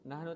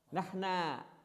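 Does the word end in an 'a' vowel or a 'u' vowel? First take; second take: u; a. First: The word ends with a 'u' vowel. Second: The word ends with an 'a' vowel. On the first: "nahnu nahnu"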